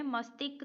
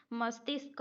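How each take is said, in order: First: "मस्तिष्क" without its sh, mas-tik; wrong form mastik. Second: "मस्तिष्क" with sibilant before k, mas-tisk; correct form mastishk. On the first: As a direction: drop the second sibilant in "मस्तिष्क". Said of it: "मस्तिष्क तो नहीं होता". ("मस्तिष्क" को मस्तिक बोलें) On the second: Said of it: "मस्तिष्क होता है". ("मस्तिष्क" में ष्क साफ़ बोलें) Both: Shown as a demonstration.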